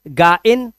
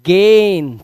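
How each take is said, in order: First: It is split into two syllables, 'ga-in'. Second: It is one syllable with an 'ay' vowel. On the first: The speaker calls it wrong. "गा इन नहीं है" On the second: The speaker calls it right.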